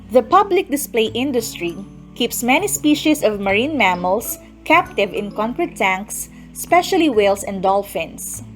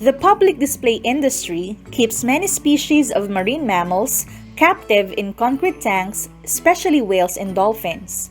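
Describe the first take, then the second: Both takes have the same delivery.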